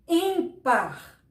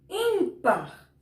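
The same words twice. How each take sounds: First: Said in the usual way. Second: Ímpar with the first syllable im punched and pitched up; ímpar, leaning hard on im; stress on IM. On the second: Shown as a demonstration. Teacher showing the class where the stress falls in ímpar, first syllable punched. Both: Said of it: "Olha a força do im".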